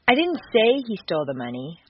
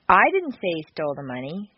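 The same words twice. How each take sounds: First: The stress is on the word say. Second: The stress is on the word I.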